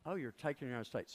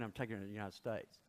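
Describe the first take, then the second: First: Fast, doubting repeat-back; an official's quick incredulous echo; mock sceptical echo. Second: Said in the usual way. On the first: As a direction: toss it back like you don't believe him.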